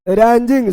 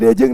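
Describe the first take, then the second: First: The word is said with the 'n' sound. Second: The word is said without the 'n' sound. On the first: The speaker calls it right. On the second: The speaker calls it wrong.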